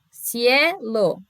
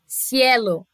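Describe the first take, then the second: First: "cielo" as cie, short break, lo; split into syllables. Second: Said in the usual way. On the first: Shown as a demonstration. Teacher showing a diphthong stays together, split into syllables.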